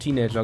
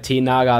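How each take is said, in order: First: It is said like the English word teenager. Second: It is read like German 'Tee' plus 'Naga'. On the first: This is how the speaker always said it. "Ich habe es von Anfang an schon Teenager genannt" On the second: This is the classic way people used to say it. "Tee Naga ist ja der absolute Klassiker. Wer hat früher nicht am Tee genagt?"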